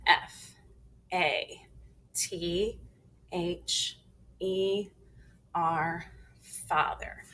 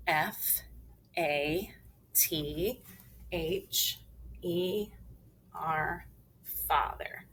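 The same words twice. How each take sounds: First: Firm letter-by-letter spelling, strong first letter; teacher's emphatic spelling drill; big and strong. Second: Said in the usual way. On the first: Shown as a demonstration. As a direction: spell it out a touch more forcefully, letter by letter. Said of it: "big and strong".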